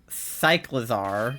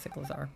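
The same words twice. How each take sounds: First: The first part sounds like the word cycle. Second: The first part sounds like the word cyclical. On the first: The speaker calls it right. "because it's like a bicycle" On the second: The speaker calls it wrong. "I was thinking like cyclical instead of cycle"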